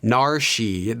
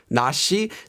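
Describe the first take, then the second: First: An r-like sound comes before 'shi'. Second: No consonant comes before 'shi'. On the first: The speaker calls it wrong. "tried to say it as an R or an L ... that would sound very awkward" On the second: The speaker calls it right. "removing it in this case"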